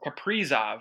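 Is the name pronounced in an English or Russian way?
Russian. The name is said with a Russian pronunciation.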